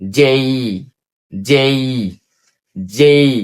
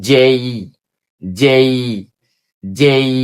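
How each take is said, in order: Both takes have the same delivery.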